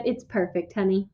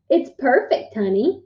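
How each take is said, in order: First: Low, soft father's voice; quiet, agreeable husband; smiling reply. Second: Child mimicking his dad; lightly mocking echo of a father; imitating father. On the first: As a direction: answer gently, dropping low. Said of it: "smiled back and said". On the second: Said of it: "imitating my father". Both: A narrator's reading.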